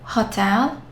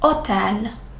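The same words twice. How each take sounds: First: The word begins with an audible h sound. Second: The word begins with no h sound. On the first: The speaker calls it wrong. "Did you say hotel? Mm-mm" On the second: The speaker calls it right. "H is always silent in Italian, so we don't pronounce it"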